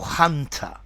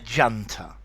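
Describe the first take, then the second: First: It starts with a soft h sound. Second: It starts with a dj sound. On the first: This is how many Americans say it. "in the United States, many people say junta or hunter" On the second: This is the British English pronunciation. "to me in English, a junta"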